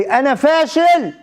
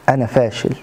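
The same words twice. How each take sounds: First: High, drawn-out mock shout; retold louder cry. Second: Said in the usual way. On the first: Friend insisting to interviewer that he failed, retold high outcry. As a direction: cry it out slowly in frustration, imitating him. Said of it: "هالمرة صرخ بصوت أعلى". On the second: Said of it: "اللي قال لي".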